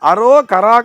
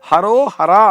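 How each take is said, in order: First: The middle consonant is a k sound. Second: The middle consonant is an h sound. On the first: The speaker calls it wrong. "காவன்னா அங்க போடப்படாது" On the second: The speaker calls it right. "ஹாவன்னாவை போடணும்"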